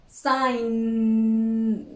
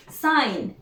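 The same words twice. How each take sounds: First: "sign" with the N held long; drawn-out final sound. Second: Said in the usual way. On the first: Shown as a demonstration. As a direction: stretch the humming N ending of "sign". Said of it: "the last sound that we produce is".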